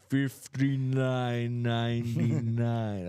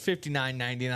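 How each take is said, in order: First: It is said very slowly, like slow motion. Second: It is said at normal speed.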